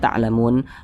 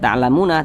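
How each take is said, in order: First: The word stops on the n without vowel. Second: The word ends with a final vowel after n. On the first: The speaker calls it right. "tapi dibaca ta'lamun" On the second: The speaker calls it wrong. "tidak dibaca ta'lamuna"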